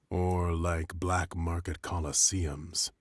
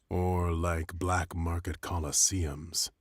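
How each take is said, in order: Both takes have the same delivery.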